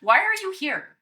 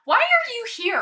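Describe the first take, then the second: First: Demanding shout. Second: High, loud challenge; demanding shout. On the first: Player repeats challenge to dragon. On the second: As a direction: call it out sharply. Player voices character confronting dragon. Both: Acted.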